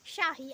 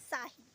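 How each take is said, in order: First: The word begins with an sh sound. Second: The word begins with an s sound. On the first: The speaker calls it right. "I was not saying like Shahi" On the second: The speaker calls it wrong. "I was saying again and again Sahi"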